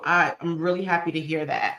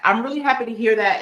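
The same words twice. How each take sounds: First: Said in the usual way. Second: Higher and brighter, leaning on happy; excited. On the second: Real, not acted. Host repeats thanks to a viewer, now excited. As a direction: say it again with real delight, a bit louder.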